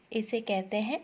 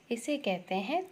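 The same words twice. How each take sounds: The two takes are said the same way.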